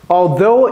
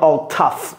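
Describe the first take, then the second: First: The second syllable sounds like though. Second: The second syllable sounds like tough. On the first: The speaker calls it right. "Though, c'est le petit frère de although" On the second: The speaker calls it wrong. "J'entends des fois les gens dire all tough. Ce n'est pas correct"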